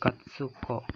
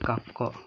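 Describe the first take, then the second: First: A full 'tsu' syllable is pronounced in the middle. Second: The 'k' is held with no extra syllable. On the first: The speaker calls it wrong. "Jadi bukan katsuko" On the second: The speaker calls it right. "tapi kako. Karena innya lebur ke sini, ke ko-nya"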